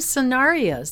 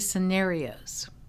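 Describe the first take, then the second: First: The stressed vowel sounds like the one in aria. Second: The stressed vowel differs from the one in aria. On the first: This is the other person's British-leaning pronunciation. "You pronounced them scenarios" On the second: This is the speaker's own usual pronunciation. "You didn't say scenarios"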